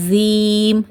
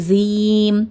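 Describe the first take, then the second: First: The first consonant sounds like a z. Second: The first consonant sounds like a z.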